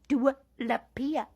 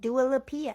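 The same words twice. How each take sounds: First: The name is said with a Spanish-like accent. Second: The name is said in a plain English accent. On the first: "Like I'm Spanish" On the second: "I don't know if I say that right"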